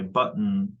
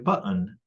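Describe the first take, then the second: First: The final n is syllabic, with no vowel. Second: A schwa vowel is heard before the n.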